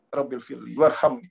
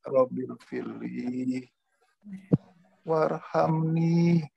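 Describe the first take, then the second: First: The phrase is recited quickly and hurriedly. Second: The phrase is recited slowly and calmly. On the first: The prayer is driven by impatience. The speaker calls it wrong. "Terburu-buru pakai nafsu" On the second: The prayer is said without haste. The speaker calls it right. "Pelan-pelan aja baca"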